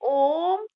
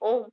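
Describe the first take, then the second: First: The vowel is stretched out for a long time. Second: The vowel is held for its normal length. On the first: "उसको लंबा खींच के बोलते हैं" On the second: "हम बोलते हैं ओम"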